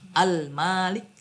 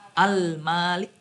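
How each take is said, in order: Both takes have the same delivery.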